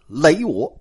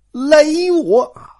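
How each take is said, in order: First: Said in the usual way. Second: 累 said slowly and stressed, higher, as in 连累; careful pronunciation. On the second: Shown as a demonstration. Teller spelling out the word for listeners, slow stressed 累. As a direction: lean on 累 in 累我 slowly, the 累 of 连累. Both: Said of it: "连累的累啊".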